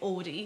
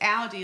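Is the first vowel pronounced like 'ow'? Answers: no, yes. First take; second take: no; yes. First: The first vowel is not an 'ow' sound. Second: The first vowel is an 'ow' sound. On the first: This is how the uncle's name is said. "you have an uncle that you say Audi" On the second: This is how the car brand is said. "it's Audi, like the AU is the vowels"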